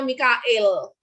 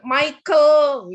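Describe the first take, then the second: First: The name is said the Indonesian way. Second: The name is said the English way.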